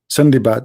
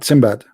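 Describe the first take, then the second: First: The name is said in its longer Arabic form. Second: The name is said in its shorter English form. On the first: "In Arabic we say Sindibad" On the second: "in English they say Simbad"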